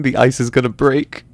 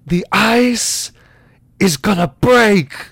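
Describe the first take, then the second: First: Said in the usual way. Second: High, loud, drawn-out outburst; big, slow theatrical line delivery; Christopher Walken. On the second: Acted. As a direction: stretch each word into an overwrought dramatic warning. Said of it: "type in Christopher Walken".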